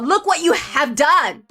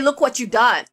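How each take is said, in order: First: "You have" is said as two full words. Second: "You have" is contracted to "you've". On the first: The speaker calls it right. "Sounds a lot more dramatic" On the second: The speaker calls it wrong. "Doesn't sound right when you say look what you've done"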